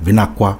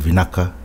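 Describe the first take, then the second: First: The k sound is followed by a w. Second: The k sound in the middle is kept plain. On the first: This is how other village dialects say it. "or even a W" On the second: This is the common standard form. "instead of Vinaka"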